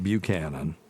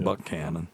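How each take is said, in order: First: The name is said the way outsiders say it. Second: The name is said the way locals say it. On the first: The speaker calls it wrong. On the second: The speaker calls it right.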